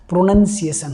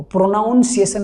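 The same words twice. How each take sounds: First: प्रोनंसिएशन said with a short "nun", pro-NUN-si-e-shan; the right form प्रोनंसिएशन, short uh vowel in the second syllable; correct pronunciation. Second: प्रोनाउंसिएशन said with a full "nau" diphthong, pro-NAUN-si-e-shan; the mistaken form प्रोनाउंसिएशन with "ou" as in "noun"; wrong pronunciation. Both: Shown as a demonstration. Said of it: "प्रोनाउंसिएशन नहीं होता है".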